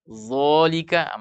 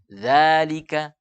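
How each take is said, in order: First: The first consonant is heavy and thick. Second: The first consonant is light, with an open mouth. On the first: The speaker calls it wrong. "Kapan kita tebalkan?" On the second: The speaker calls it right. "buka mulut. Za istifal"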